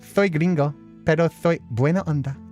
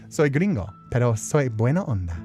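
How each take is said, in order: First: The s sounds are exaggerated into a heavy lisp. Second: The s sounds are said as plain hissing s. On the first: "See, that's over the top" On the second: "I'll pronounce it properly"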